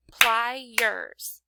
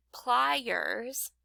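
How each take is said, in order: First: "pliers" broken into ply and ers; two punched, separate beats on "pliers"; clapped-out syllables. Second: Said in the usual way. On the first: Shown as a demonstration. Teacher breaking up the word for pupils, "pliers" in two spaced beats. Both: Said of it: "If I clapped out".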